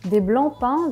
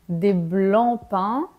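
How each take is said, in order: First: The phrase is said at a quick pace. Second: The phrase is said slowly and deliberately.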